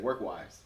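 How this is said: The voice falls at the end.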